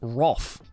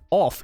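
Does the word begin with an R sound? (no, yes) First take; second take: yes; no. First: The word begins with an R sound. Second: The word begins with a plain vowel sound. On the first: "it's roff" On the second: "it's not off"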